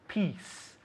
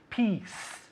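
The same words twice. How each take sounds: The two takes are said the same way.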